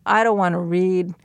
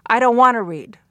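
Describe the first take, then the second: First: Tentative, with DON'T stretched and READ left hanging level; non-falling intonation. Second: Firm, louder refusal starting high on "I don't wanna" and dropping hard on READ; falling intonation. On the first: Child wanting a little encouragement, tentative non-falling intonation. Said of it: "had this different implication". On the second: Child who really won't read, firm falling intonation. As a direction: refuse outright, pitch falling to a finish on READ. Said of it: "said it with a falling intonation". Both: Shown as a demonstration.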